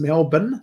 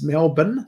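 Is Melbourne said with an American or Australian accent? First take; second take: Australian; Australian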